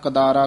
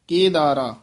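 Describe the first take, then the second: First: The first syllable has a short a vowel. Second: The first syllable has an e vowel. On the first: The speaker calls it wrong. "ਕਈ ਕਦਾਰਾ ਬੋਲ ਜਾਂਦੇ ਹਨ" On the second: The speaker calls it right. "ਕੱਕੇ ਦੇ ਲਾਂ ਲਾ ਕੇ ਰਾਗ ਦਾ ਨਾਮ ਉਚਾਰਨ ਕਰਨਾ"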